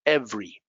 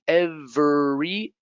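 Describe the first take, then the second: First: "every" said as EV-ree, two syllables; quick natural "every", falling; common reduced form. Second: "Every" drawn out slowly as ev-er-y; careful slow "Every" with all three syllables, rising; slow full syllables. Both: Shown as a demonstration. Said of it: "This is how we commonly pronounce them".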